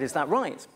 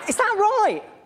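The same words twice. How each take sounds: First: The voice is normal, not squeaky. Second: The voice is high and squeaky. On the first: "I said is that right?" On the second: "I didn't say is that right quite so squeakily"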